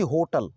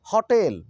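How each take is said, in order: First: "होटल" with closed 'o' and weak ending, HOH-tal; mispronunciation. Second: "होटल" with open 'haw' and long 'tel'; correct pronunciation. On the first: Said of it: "ना कि होटल". ("होटल" में गोल 'ओ' और अंत में 'टल') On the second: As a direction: say "होटल" as haw-TEL. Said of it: "ना कि". ("होटल" को 'हॉटेल' बोलें, हल्का खुला 'ऑ') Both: Shown as a demonstration.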